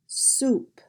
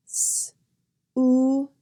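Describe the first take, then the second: First: Said in the usual way. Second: S-o-u-p in separate sounds: sss, oo, p; sounded out. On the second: Shown as a demonstration. Teacher drilling the S sound, "S-o-u-p" sound by sound. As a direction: break "S-o-u-p" into its sounds with gaps between. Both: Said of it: "Here are some words practicing the S sound".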